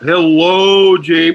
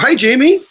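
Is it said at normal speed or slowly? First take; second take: slowly; normal. First: It is said in a slow, drawn-out voice. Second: It is said at a normal, natural pace.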